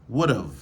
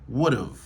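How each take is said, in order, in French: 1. Le have est raccourci en contraction. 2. Le have est raccourci en contraction.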